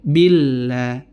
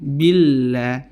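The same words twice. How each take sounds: No difference in how they are said.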